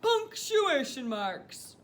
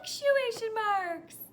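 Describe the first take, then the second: First: It is said in a very deep voice. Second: It is said in a high voice. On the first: "let's use a really, really, really deep voice to say it now" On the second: "let's use our high voice to say the same thing"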